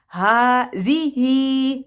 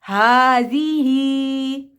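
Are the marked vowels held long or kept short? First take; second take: long; long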